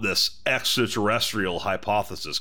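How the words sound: It is read in an American accent. "I'll do this in a good old fucking American accent"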